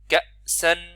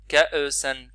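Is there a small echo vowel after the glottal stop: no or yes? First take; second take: no; yes. First: The glottal stop closes silently with no vowel. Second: The glottal stop is released with a small vowel. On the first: The speaker calls it right. "C'est la fermeture sans faire du son" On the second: The speaker calls it wrong. "Il faut pas faire ka'e, ka'e san. Il faut pas lâcher le son comme ça"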